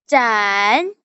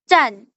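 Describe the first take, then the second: First: The pitch dips low then comes up. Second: The pitch falls sharply from high to low. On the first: "Nada ketiga" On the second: "Nada keempat"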